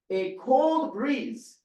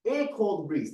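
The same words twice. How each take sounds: First: Cold stretched slow and high; slow stressed cold. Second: Said in the usual way. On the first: Shown as a demonstration. Teacher savoring cold for students. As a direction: lean on cold slowly.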